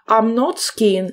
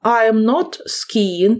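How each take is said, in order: First: Slow, clear "I'm not skiing" with the contraction; slow contracted form. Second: Slow, careful example for pupils; slow model sentence. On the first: Teacher models the contraction for the class, slow and clear. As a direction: read the short form out slowly. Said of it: "як у нас am not скорочується". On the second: Teacher models a negative sentence for the class, slow and clear. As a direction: lay each word out slowly. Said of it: "це буде виглядати так". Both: Shown as a demonstration.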